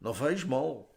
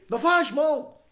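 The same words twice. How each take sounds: First: It is said in a sad tone. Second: It is said in a happy tone.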